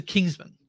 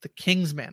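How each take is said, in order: First: "Kingsman" as one word, weak "-man"; "Kingsman" run together, "man" reduced. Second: "King's Man" as two words, man stressed; "The King's Man" with a full "man". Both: Shown as a demonstration. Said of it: "as opposed to Kingsman".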